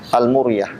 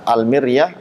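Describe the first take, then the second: First: The vowel after m sounds like u. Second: The vowel after m sounds like i. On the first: "dengan dhammah" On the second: "dengan kasroh"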